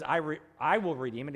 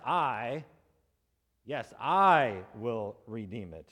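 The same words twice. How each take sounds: First: Said in the usual way. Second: "I" hit hard, slow and deliberate; stress on I. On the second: Retold or imitated. Preacher voicing the redeemer's claim, stressing "I". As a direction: lean on "I", slowing right down. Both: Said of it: "emphasizes the word "I" as well".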